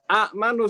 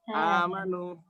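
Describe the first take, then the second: First: A glottal catch follows the short first vowel. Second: A long open vowel replaces the glottal catch. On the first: This is the original form with two hamzas, hard to say. The speaker calls it wrong. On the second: This is the form after the hamza is changed. The speaker calls it right.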